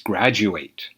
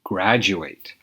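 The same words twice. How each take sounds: First: The final syllable sounds like eight. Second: The same.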